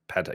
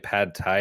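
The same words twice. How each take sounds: First: The two words are said quickly together. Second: The two words are said slowly and separately. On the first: The speaker calls it right. "You say it quickly" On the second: The speaker calls it wrong. "you don't say pad thai"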